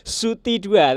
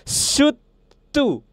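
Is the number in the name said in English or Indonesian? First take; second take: Indonesian; English. First: The number is said as Indonesian 'dua'. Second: The number is said as English 'two'. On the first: The speaker calls it wrong. "cara bacanya itu bukan Suti dua" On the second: The speaker calls it right. "tapi adalah Sutu"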